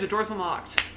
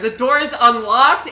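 First: It is said at normal volume. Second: It is said more loudly.

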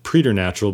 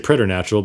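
First: The word is pronounced in a pretentious-sounding way. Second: The word is pronounced in a plain, ordinary way. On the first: The speaker calls it wrong. "Some people like to pronounce it preternatural, but I think that kind of sounds pretentious" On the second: The speaker calls it right. "So I just say preternatural"

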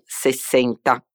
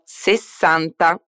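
First: It is said with a Portuguese-like pronunciation. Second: It is said with the Italian pronunciation. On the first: The speaker calls it wrong. "e non 60, come in portoghese" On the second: The speaker calls it right. "Diciamo 60"

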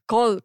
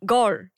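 First: It is said with a Korean-style vowel, like call. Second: It is said with an English-style vowel and r. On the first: The speaker calls it wrong. "I said call" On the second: The speaker calls it right. "I couldn't say like a…"

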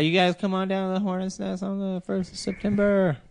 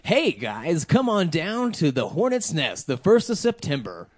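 First: It is said in a plain, ordinary voice. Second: It is said in a theatrical announcer voice.

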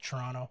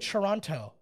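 First: The t sounds in the word are dropped. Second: The t sounds in the word are clearly pronounced. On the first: The speaker calls it right. "There's no Canadian that pronounces any of the T's" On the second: The speaker calls it wrong. "I just fucked up right there. I said Toronto"

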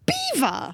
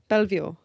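First: It sounds exactly like the word beaver. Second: Every letter is sounded, with the L and V. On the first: The speaker calls it right. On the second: The speaker calls it wrong.

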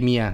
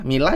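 First: The middle consonant is a Y sound. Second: The middle consonant is an L sound. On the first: This is how the name is actually read. "double L jadi ada Mia" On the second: This is how the spelling looks. "Mila jadi Mia"

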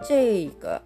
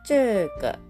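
First: The first syllable is zhei, ending in i. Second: The first syllable is zhe, without an i. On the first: "後にI がついてZHEI という読み方" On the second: "ZHE という読み方"

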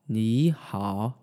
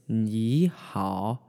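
First: First syllable rises, then the second dips. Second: First syllable rises, then the second dips.

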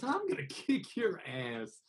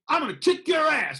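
First: It sounds warm and affectionate, like a hug. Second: It sounds threatening and ready to fight.

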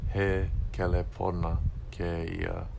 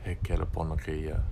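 First: Each word is separated by breaks. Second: The words run together without breaks. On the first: The speaker calls it wrong. "it's not" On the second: The speaker calls it right. "but it's"

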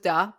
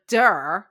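First: It is said plainly with no r sound. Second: It is said Boston style with an r sound.

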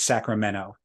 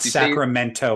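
First: The t is dropped. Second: The t is clearly pronounced. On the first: It is how locals say the name. The speaker calls it right. "there are no T's either" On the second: It is how outsiders say the name. The speaker calls it wrong. "It's not Sacramento"

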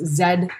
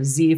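First: The letter is said the non-American way. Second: The letter is said the American way.

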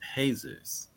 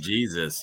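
First: The name is said with a Spanish pronunciation. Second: The name is said with an English pronunciation. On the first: "you would be like, Jesus" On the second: "instead of saying Jesus"

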